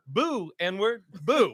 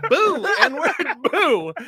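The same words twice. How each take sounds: First: Retold heckler's boo. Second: High, loud imitated boo; insistent heckler's boo. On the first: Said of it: "He goes". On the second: Front-row heckler repeating a boo at a comic, louder and insistent. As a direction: push the jeer out much louder.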